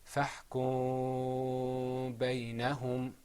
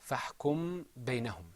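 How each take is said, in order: First: The m sound before the b is hidden. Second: The m sound before the b is clearly heard. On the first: "apply the rule of إخفاء, which means to hide, and you won't be able to hear it anymore" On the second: "That's how you say it without إخفاء"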